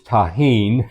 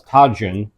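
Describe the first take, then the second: First: The middle consonant sounds like English H. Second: The middle consonant sounds like English J. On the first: The speaker calls it right. "J's are pronounced with an H sound" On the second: The speaker calls it wrong. "I've been calling"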